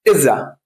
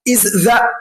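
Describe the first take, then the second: First: The s is dropped and joined into the. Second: The s is fully said before the. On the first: The speaker calls it right. "هنشيل الاس خالص ونحط الاي مع ذا وننطقها كده" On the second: The speaker calls it wrong. "هتلاقي الموضوع فيه تلعثم شديد جدا ... صعبه"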